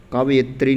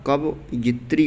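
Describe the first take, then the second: First: कवयित्री run together as "kabyitri"; squeezed "kab-yitri" for कवयित्री; wrong form. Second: कवयित्री slowly, split before यित्री; slow, separated कवयित्री; correct form. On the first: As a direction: say कवयित्री in one go, middle squeezed. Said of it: "कवयित्री नहीं होता". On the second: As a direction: break कवयित्री into "kava" and "yitri". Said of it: "कवयित्री होता है". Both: Shown as a demonstration.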